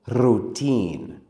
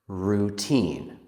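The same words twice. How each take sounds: First: The r is rolled with a moving tongue. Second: The r is smooth with no tongue trill. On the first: The speaker calls it wrong. "Some students let their tongue move a lot when they say er" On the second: The speaker calls it right. "It doesn't wiggle. It just goes up and back"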